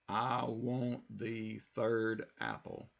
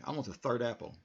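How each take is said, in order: First: Each word is said separately, choppy. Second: The words flow together smoothly.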